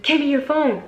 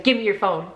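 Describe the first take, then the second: First: Higher-pitched, forceful imitated order; insistent demand. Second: Said in the usual way. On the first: Man demanding the phone after she refused, insistent.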